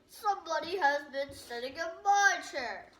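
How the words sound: It is said in a great big voice.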